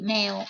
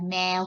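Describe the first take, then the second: First: The syllable is said with a high tone. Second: The syllable is said with a level mid tone. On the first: "เติมไม่โทเสียงตรี" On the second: "เอาพื้นเสียงก่อนแมวพื้นเสียง"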